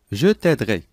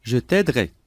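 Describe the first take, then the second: No difference in how they are said.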